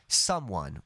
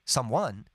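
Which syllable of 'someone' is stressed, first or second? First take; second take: first; second. First: The stress is on the first syllable. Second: The stress is on the second syllable. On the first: The speaker calls it right. "We say someone. The stress is on some" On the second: The speaker calls it wrong. "We don't say someone"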